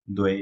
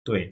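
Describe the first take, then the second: First: "দোয়ে" with a voiced d at the start; ভুল উচ্চারণ. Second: "তোয়ে" with a voiceless t at the start; সঠিক উচ্চারণ. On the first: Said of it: "দোয়ে বলা যাবে না". ("দোয়ে"-র শুরুতে ঘোষ দ ধ্বনি) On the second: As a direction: begin "তোয়ে" on t, never d. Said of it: "ত বলতে হবে". ("তোয়ে"-র শুরুতে অঘোষ ত ধ্বনি) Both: Shown as a demonstration.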